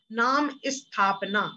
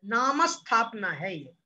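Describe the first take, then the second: First: नाम स्थापना said as "नाम इस्थापना", with an extra i before the st; slow wrong take with a short i sound before स्थापना; wrong regional pronunciation. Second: नाम स्थापना with the म linked straight into st, no i before स्थापना; correct pronunciation. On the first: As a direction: demonstrate the common mistake: इस्थापना for स्थापना, slowly. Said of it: "कुछ लोग इसे स्थापना बोल देते हैं". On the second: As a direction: say नामस्थापना joined, the स cluster bound to नाम. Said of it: "स्थापना नहीं है". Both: Shown as a demonstration.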